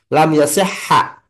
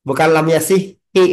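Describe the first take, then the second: First: The last word ends with an 'a' vowel. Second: The last word ends with an 'i' vowel. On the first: The speaker calls it right. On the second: The speaker calls it wrong. "bukan lam yasihi, bukan"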